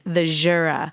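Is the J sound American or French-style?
French-style. The J is softened in a French style.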